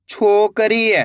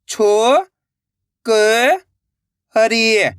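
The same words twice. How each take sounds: First: Said in the usual way. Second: छोकरी, stretched slowly, syllables apart. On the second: Shown as a demonstration. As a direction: sound out छोकरी, one syllable at a time. (धीरे-धीरे अक्षर अलग) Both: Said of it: "तो मिलके बन जाएगा".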